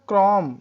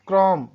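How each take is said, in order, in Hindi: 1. अंतिम b ध्वनि मौन रहती है। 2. अंतिम b ध्वनि मौन रहती है।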